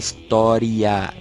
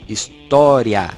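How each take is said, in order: First: The stress is on the syllable 'ri'. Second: The stress is on the syllable 'tó'. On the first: The speaker calls it wrong. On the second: The speaker calls it right.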